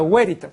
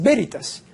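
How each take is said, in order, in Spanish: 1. El primer sonido es una consonante parecida a la W. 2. El primer sonido es una consonante parecida a la B. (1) "la V en latín se pronuncia como la U de hueso" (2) "no es Veritas"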